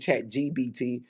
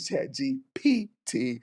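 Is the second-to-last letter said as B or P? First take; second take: B; P. First: The second-to-last letter sounds like B. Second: The second-to-last letter sounds like P. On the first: The speaker calls it wrong. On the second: The speaker calls it right.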